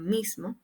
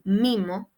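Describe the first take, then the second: First: The s before the m is kept. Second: The s before the m is dropped. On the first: This is the standard form. "en lugar de mismo" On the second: This is how it is said in Colombia. "en Colombia dicen mimo"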